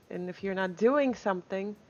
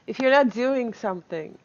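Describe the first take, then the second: First: Said in the usual way. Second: "not" hit louder and falling, rest even; rephrased advice with weight on "not"; stress on NOT. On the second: Real, not acted. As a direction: lean on the word "not" to correct yourself. Restating advice with emphasis.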